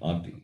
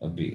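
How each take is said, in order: First: The first vowel a is long. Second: The first vowel a is short. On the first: The speaker calls it wrong. "not api" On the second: The speaker calls it right. "This is a short vowel a"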